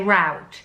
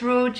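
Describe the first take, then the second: First: It is said the American way. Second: It is said the British way.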